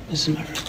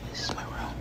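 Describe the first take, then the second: First: Said in the usual way. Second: Breathy whispered aside. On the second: Shown as a demonstration. Showing her room, first take whispered. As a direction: whisper it to yourself.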